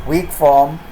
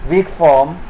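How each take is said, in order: The two takes are said the same way.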